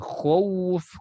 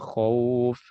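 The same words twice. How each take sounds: First: The word is pushed out with force. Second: The word flows out softly and easily. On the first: The speaker calls it wrong. "jangan ditekan" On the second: The speaker calls it right. "Jadi cara mengucapkan khauf"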